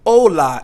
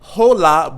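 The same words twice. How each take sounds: First: The word starts directly with the vowel. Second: The word starts with an audible h sound. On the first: The speaker calls it right. "it is most of the time silent" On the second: The speaker calls it wrong. "you're not going to say"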